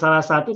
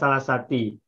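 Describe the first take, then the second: First: The second word ends in the vowel u. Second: The second word ends in the vowel i. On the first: "Bukan salah satu" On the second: "Juga bukan salah sati"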